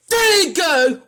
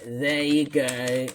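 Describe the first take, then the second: First: High, loud quoted catchphrase; angry mocking quote. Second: Said in the usual way. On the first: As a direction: yell the hated catchphrase back. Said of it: "would not say". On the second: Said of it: "he said".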